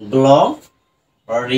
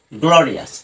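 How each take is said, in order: First: গ্লোরিয়াস in three slow, separated syllables; broken into syllables. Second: Said in the usual way. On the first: Shown as a demonstration. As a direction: draw out each part of গ্লোরিয়াস with pauses between. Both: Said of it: "ভেঙে ভেঙে উচ্চারণ করা যায়".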